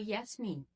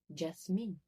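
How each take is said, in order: First: The name begins with a 'y' sound. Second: The name begins with a 'j' sound. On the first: "com som de I" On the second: "com esse som de j- j- Jasmine"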